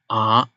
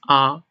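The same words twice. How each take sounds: First: The pitch dips down then rises. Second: The pitch stays level and high. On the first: "First you go down and then you bounce back" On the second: "It's a flat tone. It's very flat"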